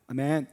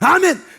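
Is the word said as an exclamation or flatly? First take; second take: flat; exclamation. First: The word is said flatly, without exclamation. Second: The word is said as a strong exclamation. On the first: The speaker calls it wrong. "이게 아니라고요" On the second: The speaker calls it right. "이것은 감탄사라고요"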